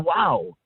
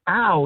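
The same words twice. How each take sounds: First: "Wow" said in impressed admiration; light awed "Wow"; admiring wow. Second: A short wince of pity, a little louder; Ow as a sorry groan for a victim; mild pitying "Ow". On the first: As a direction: Wow that lifts the person up. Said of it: "you're saying". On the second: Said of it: "Instead of saying". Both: Shown as a demonstration.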